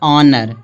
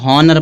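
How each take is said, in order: First: The word starts directly with a vowel. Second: The word starts with an h sound. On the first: The speaker calls it right. "फिर यहाँ दिया है ऑनर" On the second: The speaker calls it wrong. "कुछ लोग इसको हॉनर पढ़ते हैं, हॉनर नहीं पढ़ा जाएगा"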